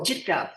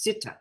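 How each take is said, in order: First: The word begins with a 'j' sound. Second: The word begins with an 's' sound. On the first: The speaker calls it right. "pronounce C I T T A" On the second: The speaker calls it wrong. "they also mispronounce the words"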